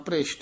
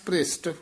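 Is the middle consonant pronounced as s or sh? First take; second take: sh; s. First: The middle consonant is a sh sound. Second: The middle consonant is a plain s sound. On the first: The speaker calls it wrong. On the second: The speaker calls it right.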